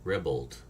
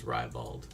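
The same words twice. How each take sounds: First: Ribald said as ribbled; first syllable of ribald like rib; short i in ribald. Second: Ribald said as rye-bald; first syllable of ribald like rye; long i in ribald. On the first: Retold or imitated. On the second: Shown as a demonstration. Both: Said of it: "How, how do you pronounce that?".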